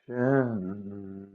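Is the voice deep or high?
high. It is said in a lifted head voice.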